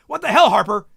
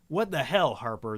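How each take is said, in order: First: It is said fast and intensely, without pause. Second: It is said casually with a small pause.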